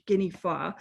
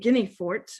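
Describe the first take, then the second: First: The name ends on an open vowel, no t. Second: The name ends with a clear t sound. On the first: This is the original form of the name. "which is the actual pronunciation of his name" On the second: This is the common Americanized form of the name. "a lot of people um, kind of westernize it, Americanize it"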